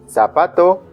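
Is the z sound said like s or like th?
s. The z is pronounced like an s sound. The speaker calls it right. "It's gonna be like zapato or zanahoria"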